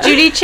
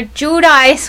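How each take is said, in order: First: Giudice said "joo-dee-chay"; louder Giudice, ending on "chay"; Italian-style pronunciation. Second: Giudice said "joo-dice"; Americanized pronunciation. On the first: Co-host defending the more Italian name, Giudice as "joo-dee-chay". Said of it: "is more Italian". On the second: Co-host using the annoyed nickname, Giudice as "joo-dice". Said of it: "also I like calling her". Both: Shown as a demonstration.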